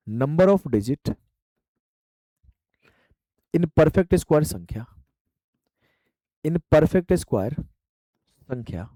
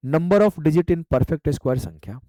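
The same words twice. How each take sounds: First: Each word stretched apart for note-taking; extra slow dictation. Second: Very slow, word by word, for students to write; slow dictation. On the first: Teacher repeating the term for students, extremely slow. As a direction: drag "number of digit" out, pausing between words. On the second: Teacher dictating a term to students, very slow. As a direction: spell out "number of digit in perfect square" at dictation pace. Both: Shown as a demonstration. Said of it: "teacher dictating the phrase slowly".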